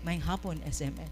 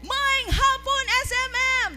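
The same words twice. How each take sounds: First: The voice is pitched low. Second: The voice is pitched high. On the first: "mubo na siya" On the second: "It was also medyo high na siya"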